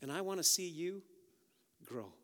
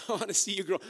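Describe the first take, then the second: First: Said in the usual way. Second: Chuckling through the words; playful laughing coo. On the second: Acted. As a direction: laugh it out warmly to the plants. Preacher acting to plants, laughing.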